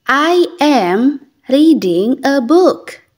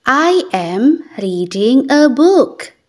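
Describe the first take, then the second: No difference in how they are said.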